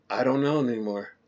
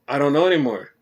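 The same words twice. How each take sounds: First: Soft, deflated give-up; defeated quiet. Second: Said in the usual way. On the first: Retold or imitated. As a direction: let it sink, all energy gone. Defeated after confusing show.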